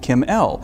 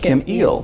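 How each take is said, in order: First: The surname sounds like the letter L. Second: The surname sounds like the word eel. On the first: The speaker calls it wrong. "a common misconception that your name is pronounced Kim L" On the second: The speaker calls it right. "It is Kim Eel"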